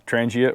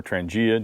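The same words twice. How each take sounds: First: Trangia said the first of two ways; first pronunciation of Trangia. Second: Trangia said the second of two ways; alternative pronunciation of Trangia. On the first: Presenter names the stove brand, first pronunciation of Trangia. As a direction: say Trangia as one accepted variant. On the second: Presenter offers another option, alternative pronunciation of Trangia. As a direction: say Trangia as the other accepted variant. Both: Shown as a demonstration. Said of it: "depending on how you wanna pronounce it".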